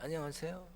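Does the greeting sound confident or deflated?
deflated. The greeting sounds weak and deflated.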